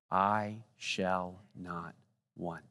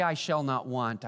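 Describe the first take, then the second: First: Very slow, lower, dropping to near silence on "want"; fading hush. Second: Said in the usual way. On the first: Shown as a demonstration. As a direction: let "I shall not want" fade away slowly. Closing recitation, fading.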